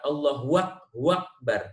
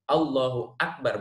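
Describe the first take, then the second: First: Akbar begins with a w sound. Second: Akbar begins with a glottal stop. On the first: The speaker calls it wrong. "tidak menambahkan waw antara keduanya" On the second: The speaker calls it right. "Harus dengan hamzah"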